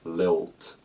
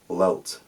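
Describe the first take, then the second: First: The first l is clear, the last l dark. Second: Both l sounds are dark and velarized. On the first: "in my accent it's l, I, o, t. L, post-alveolar, I, o, velarized, t" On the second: "certain Scottish speakers might say lelt, lelt, with l, e, o, t, velarized across the board"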